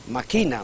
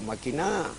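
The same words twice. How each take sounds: First: The stress is on the second syllable. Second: The stress is on the third syllable. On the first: It is a plain present form of the verb to scheme. "como inflexión del verbo maquinar es grave" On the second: It is a command to scheme. "como imperativo voceante de maquinar es aguda"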